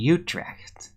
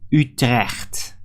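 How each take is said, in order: First: It is said with an English pronunciation. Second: It is said with a Dutch pronunciation.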